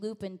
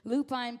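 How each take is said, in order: First: The last syllable has a short vowel like 'pushing'. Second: The last syllable rhymes with 'side'. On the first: The speaker calls it right. "when I changed the pronunciation" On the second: The speaker calls it wrong. "which I was pronouncing lupine"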